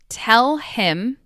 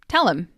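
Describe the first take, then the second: First: The h sound in 'him' is pronounced. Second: The h sound in 'him' is dropped.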